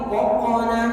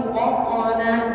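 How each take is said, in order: The two takes are said the same way.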